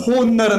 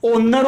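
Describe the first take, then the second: First: The word starts with an h sound. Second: The word starts with a vowel sound. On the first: The speaker calls it wrong. "यहां पर होनर नहीं होता है" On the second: The speaker calls it right. "कभी भी ओनर होता है"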